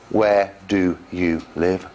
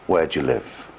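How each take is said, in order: First: "Do you" is said fully as two words. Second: "Do you" is squeezed into a "j" sound.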